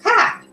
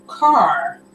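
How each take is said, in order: First: Car as a short high "cah"; r-less pronunciation. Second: Car with a full, drawn-out r; teacher's correction. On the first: Child answering the English teacher, stubborn r-less car. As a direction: pop out car with no r, pitched up. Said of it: "I'm like, "Car". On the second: English teacher correcting a child, r fully sounded in car. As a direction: correct it firmly to "carrr". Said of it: "English teachers saying, "No, car". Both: Retold or imitated.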